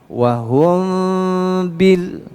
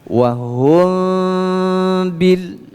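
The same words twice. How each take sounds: No difference in how they are said.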